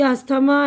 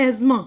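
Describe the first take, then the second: First: "अस्थमा" as as-tha-ma, TH sounded; wrong, as spelt. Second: Said in the usual way. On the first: Shown as a demonstration. Teacher repeating the wrong reading of asthma, TH sounded. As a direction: say "अस्थमा" with every letter heard. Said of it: "तो ये गलत है". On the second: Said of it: "ये है".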